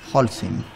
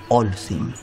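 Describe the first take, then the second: First: The word begins with a throaty h sound. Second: The word begins directly with a vowel. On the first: The speaker calls it right. "Se dice... Holcim. En suizo" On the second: The speaker calls it wrong. "No se dice Olsen"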